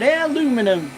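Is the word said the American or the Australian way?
American. The word is said the American way. It is meant to annoy the listeners. "If I want to irritate my family"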